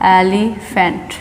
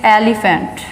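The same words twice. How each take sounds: First: Elephant slowly split as "ai-li... fant"; sounded out. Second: Said in the usual way. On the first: Shown as a demonstration. Teacher pointing students to the starting sound, elephant slow and in pieces. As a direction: break elephant into slow parts. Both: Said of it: "starting की sound देखनी है हमें".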